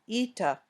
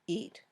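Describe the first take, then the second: First: An extra "ah" vowel follows the final t. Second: The word ends cleanly on the t sound. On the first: The speaker calls it wrong. "should not sound like ita" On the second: The speaker calls it right. "Just eat"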